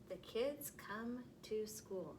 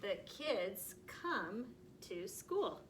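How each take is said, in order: First: Slower and softer reading. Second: Very slow, word by word; slow reading aloud. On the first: Teacher rereading the sentence softly to first graders. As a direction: read it again softly and slowly. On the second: Teacher reading the next sentence very slowly. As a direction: drag each word out slowly. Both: Shown as a demonstration. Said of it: "next sentence".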